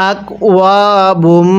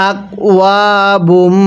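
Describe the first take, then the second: The two takes are said the same way.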